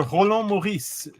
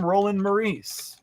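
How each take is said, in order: First: "Roland Maurice" said the French way, with uvular r and nasal an; French pronunciation. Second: "Roland Maurice" said the English way, ROH-lən mə-REES; English pronunciation. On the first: Greeting a francophone viewer, French pronunciation. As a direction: switch "Roland Maurice" into proper Québécois French. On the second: Welcoming a viewer in the chat, English pronunciation. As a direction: read "Roland Maurice" as an anglophone would. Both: Shown as a demonstration. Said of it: "et vous êtes francophone".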